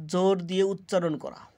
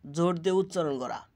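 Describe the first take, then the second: First: Said in the usual way. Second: জোর দিয়ে উচ্চারণ করা rattled off fast and softer; quick repeat. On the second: Shown as a demonstration. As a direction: rush through জোর দিয়ে উচ্চারণ করা the second time. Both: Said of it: "repeated meaning line".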